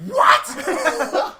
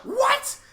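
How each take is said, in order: First: Mock surprise. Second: Laughing disbelief. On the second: Retold or imitated. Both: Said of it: "I was like".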